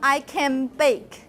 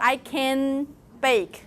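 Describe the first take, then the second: First: The nasal in 'can' becomes an m. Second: The nasal in 'can' is a clear n. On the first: The speaker calls it right. "So it becomes I can bake" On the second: The speaker calls it wrong. "I didn't do. I can bake. It's not efficient"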